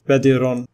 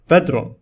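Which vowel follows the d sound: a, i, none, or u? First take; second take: i; none. First: An i vowel is heard after the d. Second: No vowel is heard after the d. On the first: The speaker calls it wrong. "nor it is badirun with kasra" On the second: The speaker calls it right. "The following word is pronounced as bedron"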